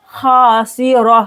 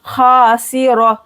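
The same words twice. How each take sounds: First: Khasira with thick kh and r; thick kh, thin si in khasira; heavy kha. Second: Khasira, thick kh, quick si; heavy kh and r in khasira; heavy kha and ra. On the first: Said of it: "ख मोटा". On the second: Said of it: "ह भारी". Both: Shown as a demonstration.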